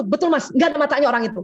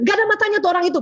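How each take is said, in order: First: Quick eager agreement, siding with the husband; supportive agreeing wife. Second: Annoyed husband. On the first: Shown as a demonstration. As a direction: back him up brightly and fast. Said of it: "gitu caranya". (istri mendukung suami, cepat mengiyakan) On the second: Retold or imitated. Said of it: "Kalau suami bilang".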